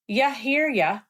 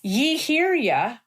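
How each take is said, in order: First: The first word is reduced to 'ya'. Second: The first word has a full 'ee' vowel. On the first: "to ya hear ya"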